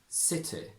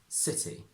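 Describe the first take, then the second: First: The final vowel is a short I as in sit. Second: The final vowel is a long tense E. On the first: "From traditional to modern" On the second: "From traditional to modern"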